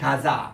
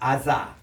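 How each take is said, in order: First: The word begins with a g sound. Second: The word begins with a vowel sound. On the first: This is how Palestinians read it. "팔레스타인 사람들은 이 아랍 사람 요를 가사라고 읽어요" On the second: "유대인들이 이렇게 읽어요"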